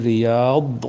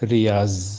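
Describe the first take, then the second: First: The last consonant is a d-like sound. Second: The last consonant is a z sound. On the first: "আরবি উচ্চারণ হচ্ছে রিয়াদ" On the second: "উর্দুতে উচ্চারণ করলে হবে রিয়াজ"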